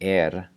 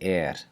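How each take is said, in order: First: The R is voiced, with vibrating vocal cords. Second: The R is voiceless, like a soft hiss. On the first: The speaker calls it wrong. "instead of saying er" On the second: The speaker calls it right. "we're going to devoice that R"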